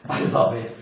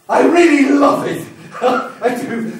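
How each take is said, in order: First: Breathy whispered confession. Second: Much higher and louder, bursting with love for fire; ecstatic outburst. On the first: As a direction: whisper it like a secret. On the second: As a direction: explode with passion on really. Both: Acted. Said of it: "And I love it".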